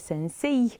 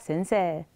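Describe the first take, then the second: First: The last syllable is said as 'sei' with 'ei'. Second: The last syllable is said as a long 'see'. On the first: "deși se scrie sensei" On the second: "îl vom pronunța sensei"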